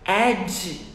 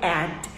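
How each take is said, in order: First: The word ends in a dj sound. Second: The word ends in a plain d. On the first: It sounds like the word for edge. The speaker calls it wrong. "se eu falar ad, ad, eu estou falando outra palavra, que é borda" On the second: It means an ad or notice. The speaker calls it right. "Eu falo add"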